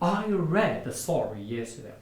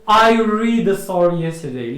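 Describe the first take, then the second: First: 'Read' has a short vowel, like 'red'. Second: 'Read' has a long vowel, like 'reed'. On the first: The speaker calls it right. "البارح غتقول" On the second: The speaker calls it wrong. "ما كاينش تقول لي"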